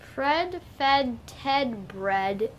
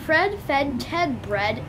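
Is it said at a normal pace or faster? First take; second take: normal; faster. First: It is said at a normal pace. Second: It is said faster.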